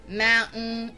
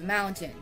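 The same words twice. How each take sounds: First: The middle t sound is dropped. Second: The middle t sound is clearly pronounced. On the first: "most people in that country would say" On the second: "instead of"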